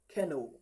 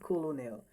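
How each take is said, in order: First: It is said with two syllables, like 'ken-ol'. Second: It is said with three syllables, as spelled. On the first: The speaker calls it right. "like saying ken and o put together" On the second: The speaker calls it wrong. "But it is not colonel"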